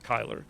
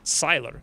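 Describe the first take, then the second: First: The name begins with a hard K sound. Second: The name begins with a soft S sound. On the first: The speaker calls it wrong. "You wouldn't pronounce that Kyler" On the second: The speaker calls it right. "You would pronounce it Sylar"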